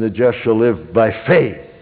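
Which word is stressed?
faith. The word "faith" carries the stress. "the third time you'd underline "faith.""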